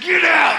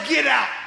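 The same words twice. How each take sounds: First: It is said forcefully, with strong attitude. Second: It is said plainly, without forceful attitude.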